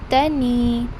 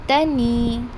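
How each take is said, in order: No difference in how they are said.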